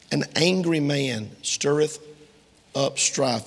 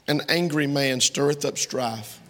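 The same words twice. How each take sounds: First: Slow. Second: Said in the usual way. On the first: Shown as a demonstration. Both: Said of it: "That's Proverbs twenty-nine twenty-two".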